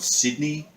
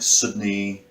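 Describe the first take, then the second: First: The i vowel is sharp, like a double e. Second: The i vowel is low, flat, almost like u. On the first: The speaker sounds like an Australian. "Australians pronounce the I like a double E, a much sharper sound" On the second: The speaker sounds like a New Zealander. "New Zealanders pronounce the I like a low, flat, almost U sound"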